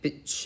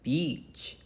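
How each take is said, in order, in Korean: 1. 모음을 짧게 끊어서 발음해요. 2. 모음을 길게 발음해요. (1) "근데 beach 하면은 욕이에요" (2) "길게 발음해야 된다는 거지. beach 이렇게 beach"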